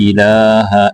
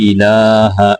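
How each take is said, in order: Both takes have the same delivery.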